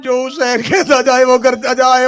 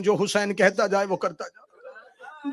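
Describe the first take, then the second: First: Forceful command. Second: Soft command. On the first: Repeated command, loud take. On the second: Repeated command, soft take. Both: Acted.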